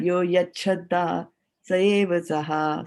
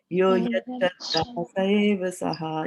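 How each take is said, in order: First: The words blend, with a ch sound joining them. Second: The words stay apart, with a t then sh. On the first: "this word becomes yach and Chadha" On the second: "if you just pronounce the individual words also"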